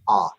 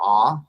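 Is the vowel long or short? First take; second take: short; long. First: The vowel is clipped and short. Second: The vowel is held full and long. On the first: "it shortens the vowel" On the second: "Instead of ah"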